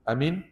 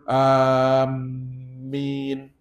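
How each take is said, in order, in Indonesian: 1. Vokal pertama pendek. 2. Vokal pertama panjang, dengan m yang dobel. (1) "dia pendek. Semua A pun pendek" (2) "A tu panjang, mim tu ada sabdu pula"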